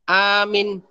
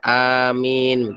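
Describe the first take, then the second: First: Only the first vowel is drawn out long. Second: The vowels have normal, even length. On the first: It becomes a command to believe. The speaker calls it wrong. "yang panjangnya hamzanya saja" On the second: It means the intended prayer response. The speaker calls it right. "Adapun panjangnya ya biasa"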